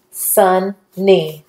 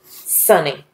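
First: SUNNY split into SUN, short pause, NEE; syllable by syllable. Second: Said in the usual way. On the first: Shown as a demonstration. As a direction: sound out "Sunny" slowly in two separate syllables. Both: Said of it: "put it together".

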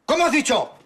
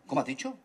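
First: Loud, high outraged yell; father roaring at his son; furious shout. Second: Father's cold warning; quiet menace. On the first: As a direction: explode at the answer. Father explodes at the reply. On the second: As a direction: dare him to repeat it. Father hears defiance, goes cold. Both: Acted.

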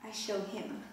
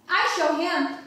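First: Soft, barely voiced murmur; fading, nearly gone; weak and faint. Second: Firm and defiant, a bit louder. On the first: Faint after nearly drowning. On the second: Acted. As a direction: stand up to him with it. Defiant about her father.

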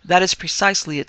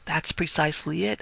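First: "That" hit louder, each word full, falling end; emphatic agreement. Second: Said in the usual way. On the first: A narrator's reading. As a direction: confirm it with weight on "That".

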